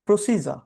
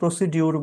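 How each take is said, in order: First: The middle is said with a j sound. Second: The middle is said with a d sound. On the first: The speaker calls it right. "আপনি সঠিক উচ্চারণটা করবেন" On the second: The speaker calls it wrong. "অনেকে প্রসিডিউর বলে... এটা ভুল pronunciation"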